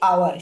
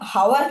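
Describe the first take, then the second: First: The word starts with a vowel, no h. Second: The word starts with a sounded h. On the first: The speaker calls it right. "আমরা বলি আওয়ার" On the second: The speaker calls it wrong. "হাওয়ার কিন্তু আমরা বলি না"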